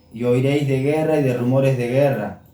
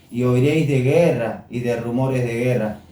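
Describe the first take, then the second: The two takes are said the same way.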